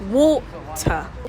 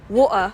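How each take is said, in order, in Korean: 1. 가운데 t는 분명한 t 소리예요. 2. 가운데 t는 성문 파열음이에요. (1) "British pronunciation" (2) "the Cockney accent, then practice the glottal T"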